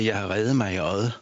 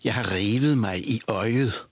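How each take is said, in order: First: The sounds are reduced, as in casual speech. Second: Every sound is pronounced fully, as written. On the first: "Jeg siger" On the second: "For jeg siger jo for eksempel ikke"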